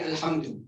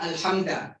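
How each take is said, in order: First: The word ends with a 'u' vowel. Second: The word ends with an 'a' vowel. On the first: The speaker calls it right. "should be Alhamdu" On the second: The speaker calls it wrong. "It's not Alhamda"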